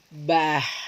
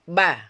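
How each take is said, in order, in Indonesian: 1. Suku kata "ba" berakhir dengan hembusan napas yang terdengar. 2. Suku kata "ba" berakhir dengan bersih, tanpa napas tambahan. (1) "kita menahan napas ya. Jangan sampai dialihkan, jangan bah seperti itu" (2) "Ba seperti itu. Jangan lagi ada tambahan-tambahan nafas"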